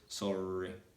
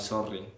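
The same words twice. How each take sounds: First: The R is pronounced softly, without rolling. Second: The R is pronounced strongly, rolled or emphasized. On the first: The speaker calls it right. "you need to make like a soft R sound" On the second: The speaker calls it wrong. "they don't say like sorry"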